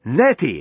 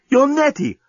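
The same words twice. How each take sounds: First: Exclaiming. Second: Much higher astonished cry; shocked recognition. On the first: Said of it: "exclaimed Dan". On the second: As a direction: recognize her in disbelief. Dan recognizing Nettie. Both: A narrator's reading.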